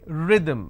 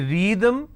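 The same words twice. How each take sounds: First: The first vowel is short. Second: The first vowel is long. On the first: The speaker calls it right. "which means short vowel sound I" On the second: The speaker calls it wrong. "Can I say rhythm? No"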